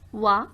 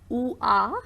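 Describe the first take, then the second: First: The two vowels glide softly into one sound. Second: The two vowels are said as separate sounds. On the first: The speaker calls it right. "it's Wa" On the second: The speaker calls it wrong. "we are not saying like oo ah"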